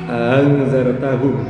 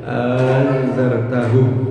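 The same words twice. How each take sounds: First: The second glottal stop is softened, not fully stopped. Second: A long vowel comes before the softened second stop. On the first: "ada yang membaca tashil" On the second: "ada alif, artinya panjang"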